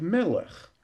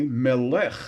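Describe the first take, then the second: First: Melech as ME-lech, light ending; strong ME in melech; stress on first syllable. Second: Melech as me-LECH; stress on last syllable. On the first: Shown as a demonstration. Teacher gives standard form for comparison, melech stressed on ME. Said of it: "next to the last syllable". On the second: Retold or imitated. Teacher quotes a French man's request, melech stressed on LECH. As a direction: lift the second syllable of melech. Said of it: "accented on the last syllable".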